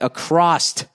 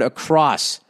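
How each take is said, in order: First: The word ends with a t sound. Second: The word ends with an s sound. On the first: The speaker calls it wrong. "I always said across instead of" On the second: The speaker calls it right. "the correct word across"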